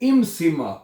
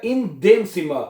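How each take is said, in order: First: It is contracted into the single word 'im'. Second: It is said as two separate words, 'in dem'. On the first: "ये बन जाएगा इम" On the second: "तो बन जाएगा इन देम सिमा"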